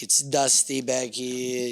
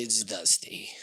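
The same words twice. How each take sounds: First: Said in the usual way. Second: Whisper. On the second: Real, not acted. Repeated in a whisper.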